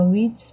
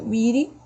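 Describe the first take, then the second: First: It is said in a British accent. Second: It is said in an American accent. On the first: "britânica"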